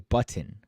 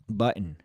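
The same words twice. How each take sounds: First: The T sound is strongly pronounced. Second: The T sound is soft or swallowed. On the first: The speaker calls it wrong. "That's too much uh, T's there" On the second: The speaker calls it right. "however I said it"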